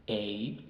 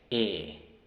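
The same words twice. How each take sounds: First: Long E, said like its English name "ee"; long E sound. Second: Short E, open "eh" as in bed; short E sound. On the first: Teacher demonstrating long vowels to learners, long E as "ee". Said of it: "los sonidos largos o los nombres". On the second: Teacher demonstrating short vowels to learners, short E as "eh". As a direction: say E as "eh", not "ee". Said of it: "tienen los sonidos cortos". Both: Shown as a demonstration.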